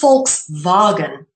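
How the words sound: It is said the German way, with an F.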